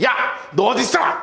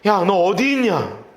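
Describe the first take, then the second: First: It is shouted in a scolding, angry tone. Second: It is called out in a gentle, warm tone. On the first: The caller is rebuking the one hiding. The speaker calls it wrong. "호통을 치시기 위해서" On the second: The caller lovingly invites the one hiding to come out. The speaker calls it right. "따뜻하게 부르시는 음성이에요"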